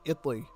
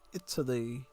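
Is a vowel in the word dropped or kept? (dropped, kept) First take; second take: dropped; kept. First: One vowel in the word is left out. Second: Every vowel in the word is pronounced.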